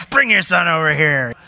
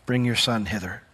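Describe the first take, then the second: First: "Bring" snapped curtly, like a put-upon teacher; mock curt Jesus. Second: Said in the usual way. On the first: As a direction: toss off the command impatiently. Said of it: "that's kinda how it comes off at first read". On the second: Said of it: "look at verse forty-one".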